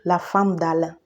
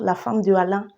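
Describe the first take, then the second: First: De is elided and joined to the name. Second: De is said in full before the name. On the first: The speaker calls it right. "au lieu de dire la femme d'Alain" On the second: The speaker calls it wrong. "on a tendance à dire la femme de Alain"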